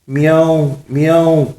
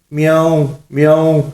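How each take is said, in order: First: High-pitched, odd-sounding cat imitation; botched cat meow. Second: High, composed cat imitation; proper cat meow. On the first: Mullah tries a meow for the witch, strangely botched. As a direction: meow as if something is stuck in the throat. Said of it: "جس کی وجہ سے عجیب سی آواز نکلی". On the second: Mullah collects himself for the witch, correct cat meow. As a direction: meow carefully like a real cat. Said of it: "ملا جی نے سنبھل کر بلی کی درست آواز نکالی".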